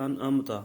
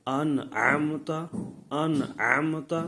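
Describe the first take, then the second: First: انعمت with a plain glottal hamza replacing the ʿayn. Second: انعمت with the ʿayn voiced loud and throaty; انعمت, slow recitation with a true pharyngeal ʿayn; clear ʿayn sound. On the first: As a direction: say انعمت as an-amta, no throat sound. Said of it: "تو وہ حمزہ آ جاتا ہے". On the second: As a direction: lean slowly on the throat consonant in انعمت. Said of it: "عین کی آواز نکالیں". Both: Shown as a demonstration.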